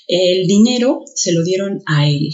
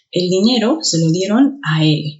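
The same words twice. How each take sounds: First: Said in the usual way. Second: Él said stronger at the end; stress on él. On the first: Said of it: "Cuál de los dos sonó más". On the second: Shown as a demonstration. Teacher demonstrating stress to student, él stressed. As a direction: lean on the final word él. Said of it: "El último".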